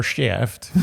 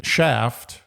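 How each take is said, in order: First: Mock Jewish-accented shaft. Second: Said in the usual way. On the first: Shown as a demonstration. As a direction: say shaft as "shtyeft", Jewish style. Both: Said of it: "That's not the Jewish version of shaft".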